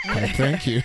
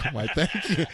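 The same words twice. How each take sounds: First: A mock-posh, charmed reply, louder; flattered thank you. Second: Flattered thank you. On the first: Himself answering Corinne's compliment, mock-posh and flattered. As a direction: play it flattered and proper. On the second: Retold or imitated. Himself repeating his reply to Corinne, mock-posh. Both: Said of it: "I was like".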